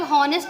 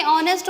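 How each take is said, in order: First: हॉनेस्ट with an audible h at the start; H sounded. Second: ऑनेस्ट starting straight on the o vowel; silent H. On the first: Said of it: "हॉनेस्ट तो पढ़ते नहीं". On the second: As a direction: say ऑनेस्ट with no h at all. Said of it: "ऑनेस्ट होता है". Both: Shown as a demonstration.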